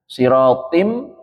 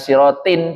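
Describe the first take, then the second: First: The final nasal merges into an m sound. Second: The final nasal is a distinct n sound. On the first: The speaker calls it right. "di sini mimnya hilang" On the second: The speaker calls it wrong. "Bukan sirotin, bukan"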